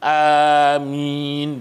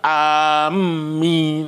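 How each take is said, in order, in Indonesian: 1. Vokal pertama panjang, m tunggal. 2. Bunyi m digandakan dan ditahan. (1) "Jadi amin gitu, dipanjangkan ... alifnya ... dan tidak perlu ditasydidkan mimnya" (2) "ada setengah tu amin, ha, itu tak boleh"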